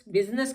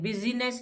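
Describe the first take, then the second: First: The word is said with two syllables. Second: The word is said with three syllables. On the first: The speaker calls it right. "बिजनेस कहते हैं" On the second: The speaker calls it wrong. "बिजीनेस नहीं कहते हैं"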